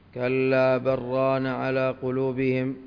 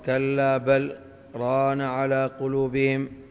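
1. تتصل الكلمات دون سكتة بعد 'بل'. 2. توجد سكتة قصيرة بعد 'بل'. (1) "وقرئ بالوصل" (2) "والوقف"

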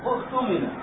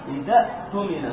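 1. تبدأ الكلمة من جديد بهمزة قطع. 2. تتصل الكلمة بسلاسة بالكلمة التي قبلها. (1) "تقف على إذا وتبدأ كلمة هذه الكلمة تقرأها كيف؟" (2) "هي تقرأ إذا إذا اؤتمن إذا اؤتمن هكذا"

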